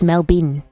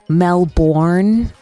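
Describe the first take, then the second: First: The last syllable is reduced, like 'bin'. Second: The last syllable is full, like 'born'. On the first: The speaker calls it right. "Like a bin" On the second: The speaker calls it wrong. "Not Melbourne. No one says that"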